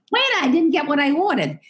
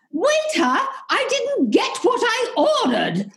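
First: A lighter, higher mock British "Waiter, I didn't get what I ordered."; a toned-down imitation of the indignant Brit; milder British tourist. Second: Much higher mock British complaint to the waiter; snooty British tourist. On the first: British tourist grumbling at the waiter, lightly mocked. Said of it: "it's almost like". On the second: British tourist in a Spanish restaurant complaining to the waiter, mock posh. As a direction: ham up an indignant upper-crust Brit. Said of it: "you hear somebody going".

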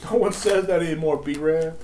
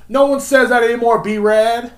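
First: Toned-down scolding, slightly raised pitch; amused rebuke. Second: High, loud scolding outburst; mock exasperated yell. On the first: Pretend. Podcaster repeating his jab after laughing, toned-down amused rebuke. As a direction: repeat the put-down without shouting. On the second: Podcaster telling off the slang-talking wannabe, exasperated yell. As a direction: shout it down in mock outrage. Yells rebuke at the imitated wannabe.

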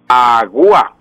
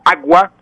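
First: "agua" broken slowly as a-gu-a; diphthong split into hiatus. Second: Said in the usual way. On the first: Shown as a demonstration. Professor shows listeners the wrong agua, u split from a. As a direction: stretch the u of "agua" into its own syllable. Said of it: "no puedo decir agua". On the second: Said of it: "se pronuncian en un solo golpe de voz".

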